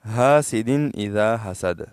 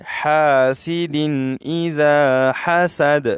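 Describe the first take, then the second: First: حاسد and حسد with a plain ہ, not the throat ح; imitating how people misread حاسد; common mistake. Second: Slow recited demo of حاسد اذا حسد; correct ح. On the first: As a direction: say حاسد the wrong way, light ہ. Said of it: "اکثر لوگ کس طرح پڑھتے ہیں؟". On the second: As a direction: breathe the ح from the throat in حاسد. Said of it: "ہا کو اپنے مخرج سے ادا کریں گے". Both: Shown as a demonstration.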